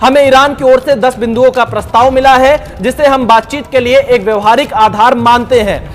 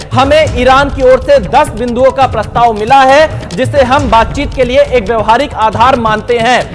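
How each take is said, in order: The two takes are said the same way.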